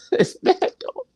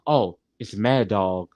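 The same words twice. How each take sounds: First: Very high, put-on spooky squeal; high mock voice. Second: Said in the usual way. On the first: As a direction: repeat it in a much higher voice. Repeats the line in put-on voice.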